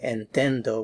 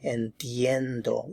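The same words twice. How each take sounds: First: The middle is said without a 'ye' glide. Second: The middle is said with a 'ye' glide. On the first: The speaker calls it wrong. "We're not saying entiendo" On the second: The speaker calls it right. "we're saying entiendo. Ye, ye"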